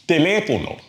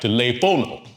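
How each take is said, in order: First: The stress is on the second syllable. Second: The stress is on the third syllable. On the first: The speaker calls it right. "The real stress is on the third to the last syllable" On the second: The speaker calls it wrong. "we'd expect the second to the last syllable to be stressed"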